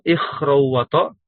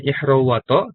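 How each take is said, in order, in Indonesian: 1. Konsonan kedua itu kh yang serak dari tenggorokan. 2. Konsonan kedua itu h yang halus dan berhembus. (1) "di buku lain pakai kho" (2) "di buku ini dibacanya"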